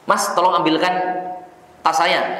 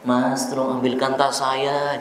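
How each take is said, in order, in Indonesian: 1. Nadanya biasa dan tegas. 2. Nadanya lembut dan manis. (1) "Biasa saja. Kalau enggak, ya dengan kata-kata yang tegas" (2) "dengan nada-nada yang dilembut-lembut. Enggak boleh"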